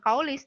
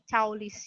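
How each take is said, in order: First: The word is said with English-style vowel sounds. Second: The word is said exactly as it is spelled. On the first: The speaker calls it wrong. "bukan kaulis" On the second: The speaker calls it right. "dibacanya pun sesuai dengan tulisannya"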